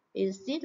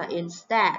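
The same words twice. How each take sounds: First: "Instead" with an ee in the second syllable; mispronounced vowel. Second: "instead" with an open eh in the second syllable; correct short E. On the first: Teacher showing what not to say, "Instead" as in-steed. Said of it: "Instead là sai nhé". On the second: Teacher correcting students, "instead" with a short eh. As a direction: say "instead" as in-STED. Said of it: "Từ này các bạn phải phát âm là instead". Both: Shown as a demonstration.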